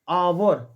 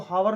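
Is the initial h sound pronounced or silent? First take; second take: silent; pronounced. First: The word starts with a vowel, no h. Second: The word starts with an audible h sound. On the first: The speaker calls it right. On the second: The speaker calls it wrong. "इसको हावर नहीं पढ़ता"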